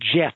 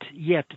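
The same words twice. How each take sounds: First: The name is pronounced the English way. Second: The name is pronounced the Dutch way. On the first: The speaker calls it wrong. "people would pronounce it Jet" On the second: The speaker calls it right. "her nickname in Dutch would would be Jet"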